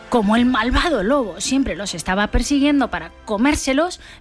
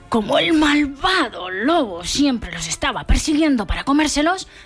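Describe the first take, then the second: First: 'Malvado' is said plainly, without menace. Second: 'Malvado' is said in a scary, menacing voice.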